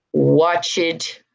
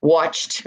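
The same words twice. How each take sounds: First: "watched" as watch-id; slip, extra syllable. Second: "watched" as watcht, one syllable; final T sound. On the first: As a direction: give "watched" two syllables. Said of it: "I'm sorry". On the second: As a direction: end "watched" on T, no E. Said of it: "hear the T sounds". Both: Shown as a demonstration.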